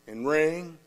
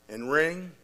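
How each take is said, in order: Both takes have the same delivery.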